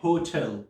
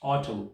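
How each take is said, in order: First: "होटल" with an audible H at the start; H pronounced. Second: "ऑटल" starting straight on the O vowel; silent H. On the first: Teacher showing students the H version, "होटल" with its H sounded. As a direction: say "होटल" breathing the H in front. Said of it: "एच को pronunciation के अंदर लेके आते हैं". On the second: Teacher showing how some speakers say hotel, H dropped in "ऑटल". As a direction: drop the H and open "ऑटल" on O. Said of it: "वो pronounce करते हैं ओ से". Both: Shown as a demonstration.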